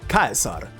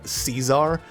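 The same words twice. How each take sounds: First: The name has a Latin pronunciation. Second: The name has an English pronunciation. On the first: "go the Latin way and say it Caesar" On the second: "that's the English way to say the name"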